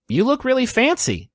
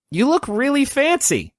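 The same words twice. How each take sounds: First: A higher woman's voice, lightly done; smiling compliment from a woman; adult woman. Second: Put-on much higher young girl voice; light girlish compliment. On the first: Acted. Killian greets the officiant, lightly higher woman's voice. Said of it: "she smiles and she says". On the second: Mavis compliments her dressed-up father, high girl voice. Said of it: "she says".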